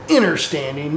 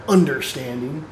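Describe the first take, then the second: First: Understanding said as innerstanding, with the first syllable like inner. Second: Said in the usual way. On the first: Shown as a demonstration. Correcting the reading of the article, understanding said as innerstanding. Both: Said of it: "not understanding".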